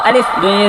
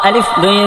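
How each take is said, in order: The two takes are said the same way.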